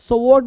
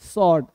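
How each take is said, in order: First: The W sound is pronounced after the S. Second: The W sound is silent after the S. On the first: The speaker calls it wrong. "स्वॉर्ड नहीं" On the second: The speaker calls it right. "डब्लू जो है वो silent है"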